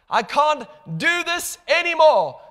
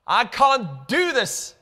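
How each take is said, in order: First: Much higher and louder on anymore; rising desperate cry. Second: Pleading cry. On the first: Believer surrenders to God, higher louder desperate cry. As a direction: let it break out desperately. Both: Acted. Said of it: "we say".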